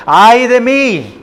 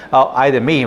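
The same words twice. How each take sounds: First: Slow, high-pitched exclamation of woe; forceful lament. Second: Said in the usual way. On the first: Shown as a demonstration. Preacher showing how Micah exclaims it, forceful lament. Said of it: "la fuerza en cual él dice estas palabras". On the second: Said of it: "No es una".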